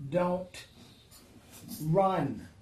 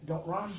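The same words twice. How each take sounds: First: Long pause between "Don't" and "run"; spaced-out plea. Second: Said in the usual way. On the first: Acted. God slowly urging the frightened believer not to run. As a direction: hold after "Don't", then land "run".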